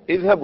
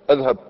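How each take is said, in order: First: اذهب opening with a clear i, idhhab; kasra on hamza. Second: أذهب opening with a, adhhab; fatha on hamza. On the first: Teacher quizzing on the command, kasra on hamza. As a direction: start اذهب on a firm ee-like vowel. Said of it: "مفتوحة أو مكسورة". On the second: Teacher offering the wrong option, fatha on hamza. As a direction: offer أذهب with an open a at the start. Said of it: "ما كاينش فتحة". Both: Shown as a demonstration.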